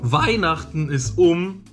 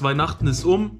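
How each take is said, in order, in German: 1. Die Betonung liegt auf dem ersten Wort. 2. Die Betonung liegt auf dem letzten Wort. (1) "Vorne betonen" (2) "nicht hinten"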